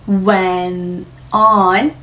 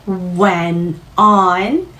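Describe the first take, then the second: No difference in how they are said.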